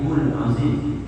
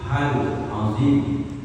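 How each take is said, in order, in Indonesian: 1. Vokal sebelum azim adalah u. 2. Vokal sebelum azim adalah a. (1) "apalagi hul azim, jangan" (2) "Yang betul itu hal azim"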